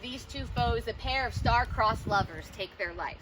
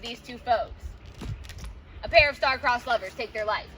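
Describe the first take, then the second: First: The line runs on without a pause after 'foes'. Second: There is a stop and breath after 'foes'. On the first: The speaker calls it right. "we need to read the line as if it's a single, like, continuous line" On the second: The speaker calls it wrong. "I'm not going"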